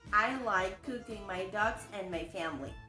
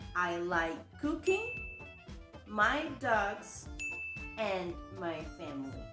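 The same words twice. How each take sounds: First: It is said without pauses between items. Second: It is said with pauses between items.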